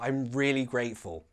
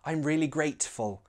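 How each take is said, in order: First: The T in grateful is a glottal stop. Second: The T in grateful is clearly released.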